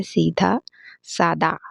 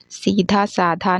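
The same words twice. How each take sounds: First: सादा said as "saada"; no puff of breath in सादा; correct pronunciation. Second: साधा said as "saadha"; breath after the d in साधा; wrong pronunciation. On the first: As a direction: give सादा an unaspirated d. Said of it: "सीधा साधा नहीं होता है". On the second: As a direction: give साधा an aspirated dh. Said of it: "नहीं होता है". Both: Shown as a demonstration.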